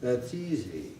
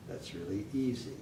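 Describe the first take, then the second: First: THAT'S EASY up, then a clear drop on EASY; raised falling intonation. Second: THAT'S REALLY EASY soft, dropping on EASY; low falling intonation. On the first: Teacher shows the fall up here, falling intonation. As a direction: roll over EASY and let it fall. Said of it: "Up here". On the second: Teacher drills the fall lower down, soft falling intonation. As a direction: let EASY fall away softly. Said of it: "this is the fall". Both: Shown as a demonstration.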